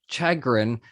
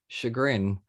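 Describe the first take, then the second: First: The word is pronounced as it is spelled. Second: The word has its usual standard pronunciation.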